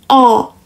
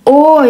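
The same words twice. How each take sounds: First: The vowel is said with an open mouth. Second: The vowel is said with rounded lips. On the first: The speaker calls it right. "mulut kita A. Tapi di membentuk O" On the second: The speaker calls it wrong. "bukan O ya"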